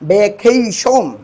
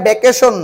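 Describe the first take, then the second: First: The stressed vowel glides from 'e' to 'i'. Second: The stressed vowel is a plain short 'e'. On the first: The speaker calls it right. "এটা হবে কি ভ্যাকেশন" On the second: The speaker calls it wrong. "এটা ভ্যাকেশন নয়"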